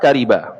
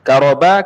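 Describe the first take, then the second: First: The vowel after the r is i. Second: The vowel after the r is a. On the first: The speaker calls it wrong. "membaris bawah kasrahkan ra" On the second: The speaker calls it right. "dengan difathahkan akan ra"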